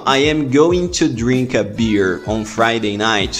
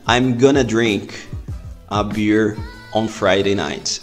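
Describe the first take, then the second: First: Going to is said in full. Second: Going to is reduced to gonna. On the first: "se eu falar assim" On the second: "eu posso abreviar essa frase para gonna"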